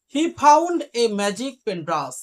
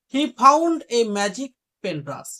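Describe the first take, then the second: No difference in how they are said.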